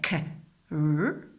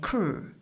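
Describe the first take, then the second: First: The two sounds are said apart with a break. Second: The two sounds are joined into one sound. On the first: The speaker calls it wrong. "We don't say" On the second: The speaker calls it right. "We say kr"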